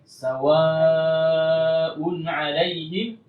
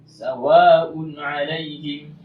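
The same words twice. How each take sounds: First: The long vowel is held for four counts. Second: The long vowel is held for only two counts. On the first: The speaker calls it right. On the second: The speaker calls it wrong.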